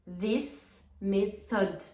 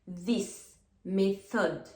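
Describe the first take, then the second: The two takes are said the same way.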